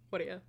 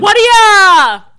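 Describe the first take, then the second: First: It is said weakly and quietly. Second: It is screamed very loudly.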